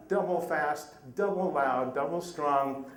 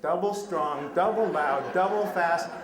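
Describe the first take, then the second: First: A touch louder, punching each double; mock tirade. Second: Louder and louder, hitting each double hard; building mock tirade. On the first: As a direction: hammer out every double like her scolding. Tourist describes the woman's tirade. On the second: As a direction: let it swell like her unstoppable scolding. Tourist retells the woman's second tirade.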